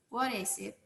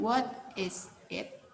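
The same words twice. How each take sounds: First: The words run together quickly and smoothly. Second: The words are said slowly and separately. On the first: "jika fluent dengan lancar" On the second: "Jika perlahan kita mengucapkannya"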